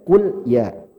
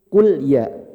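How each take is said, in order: The two takes are said the same way.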